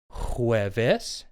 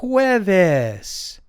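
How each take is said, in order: First: Jueves low and soft, rising on ves; review prompt. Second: Jueves drawn out high, HWEH-ves; Spanish pronunciation demo. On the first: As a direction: lift the end of a soft jueves. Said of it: "let's go over that again". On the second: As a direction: say jueves high, falling on the last syllable. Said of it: "Thursday is pronounced". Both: Shown as a demonstration.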